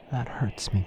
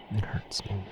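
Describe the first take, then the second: First: Said in the usual way. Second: It hurts me whispered, softer; pained whisper repeat. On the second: Acted. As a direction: breathe the repeat as a hurt whisper. Repeats the hurt line, whispered.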